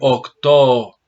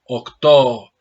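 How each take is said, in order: Both takes have the same delivery.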